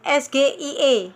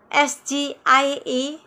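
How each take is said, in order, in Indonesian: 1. Huruf-huruf itu disebut dengan nama huruf bahasa Indonesia. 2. Huruf-huruf itu disebut dengan nama huruf bahasa Inggris. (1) "tapi dia menyebut S G I E" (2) "Seharusnya S G I E"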